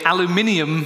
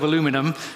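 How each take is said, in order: First: It is said with a British pronunciation. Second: It is said with an American pronunciation. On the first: "I say aluminium" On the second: "instead of aluminum"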